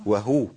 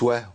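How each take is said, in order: First: The h is followed by a clear u vowel. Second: The h is said without a following vowel. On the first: The speaker calls it right. "الهاء عندي مضمومة صح؟" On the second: The speaker calls it wrong. "مش"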